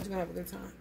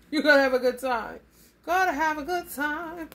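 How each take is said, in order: First: Said in the usual way. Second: Louder, laughing through the promise; a gleeful, emphatic promise; excited. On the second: Real, not acted. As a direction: really sell the good time.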